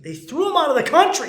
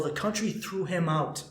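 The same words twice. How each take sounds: First: Repeated higher and louder in disbelief; incredulous emphasis. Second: Said in the usual way. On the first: Shown as a demonstration. Host repeating the ban to listeners, louder and incredulous. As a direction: hammer it home, can't believe it.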